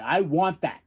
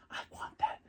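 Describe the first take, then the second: First: Said in the usual way. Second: Breathy whispered craving. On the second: Retold or imitated. Fan whispering his wish for the titles, whispered.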